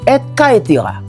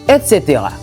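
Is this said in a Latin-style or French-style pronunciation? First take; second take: Latin-style; French-style. First: It is said with a Latin-style pronunciation. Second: It is said with a French-style pronunciation. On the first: "c'est une locution latine qui se lit et caetera" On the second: "mais en français que nous lit et cetera"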